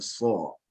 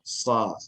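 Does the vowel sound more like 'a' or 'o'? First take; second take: o; a. First: The vowel sounds rounded and back, like 'o'. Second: The vowel sounds open and front, like 'a'. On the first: This is the most eloquent way, as in Mecca. "yang paling fasih ... adalah seperti ini" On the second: "mengucapkan sod ini juga dengan sa ya, agak dia seperti a juga"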